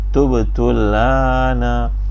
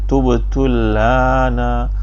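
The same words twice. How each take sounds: Both takes have the same delivery.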